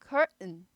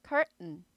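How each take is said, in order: No difference in how they are said.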